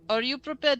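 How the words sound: It is spoken with a put-on Russian accent. The speaker calls it right.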